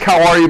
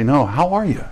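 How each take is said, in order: First: It is asked dutifully, without real interest. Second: It is asked warmly, with real concern.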